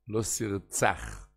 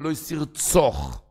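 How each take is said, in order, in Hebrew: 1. התנועה הסופית נהגית כפתח. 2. התנועה הסופית נהגית כקמץ. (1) "בפסח" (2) "בקומץ"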